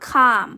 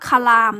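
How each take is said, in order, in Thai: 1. ไม่ออกเสียง L ก่อนเสียง M 2. ออกเสียง L ก่อนเสียง M (1) "ไม่ออกเสียงตัว l" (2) "คำนี้จะไม่อ่านว่าคลามนะคะ"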